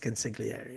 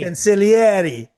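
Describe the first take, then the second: First: The G sound is clearly pronounced. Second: The G sound is left out. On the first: The speaker calls it wrong. "Marlon Brando pronounces the G" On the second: The speaker calls it right. "they do not pronounce the G in consigli"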